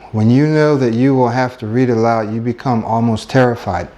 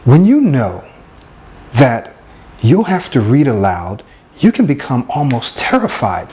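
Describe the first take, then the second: First: It is read flatly, without expression. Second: It is read dramatically, with emotion.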